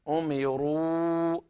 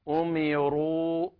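No difference in how they are said.

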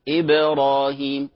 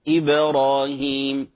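Both takes have the same delivery.

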